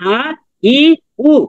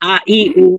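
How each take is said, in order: First: The three syllables are said slowly. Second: The three syllables are said quickly. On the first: The speaker calls it wrong. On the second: The speaker calls it right.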